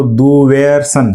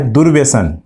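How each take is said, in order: First: दुव्यसन read without the र, slow; wrong reading. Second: दुर्व्यसन with a clear र after du; correct reading. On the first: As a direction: say दुव्यसन as du-vyasan, the r dropped. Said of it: "इसको हम पढ़ें तो". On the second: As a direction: say दुर्व्यसन as dur-vyasan, r sounded. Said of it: "जबकि सही क्या है?". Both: Shown as a demonstration.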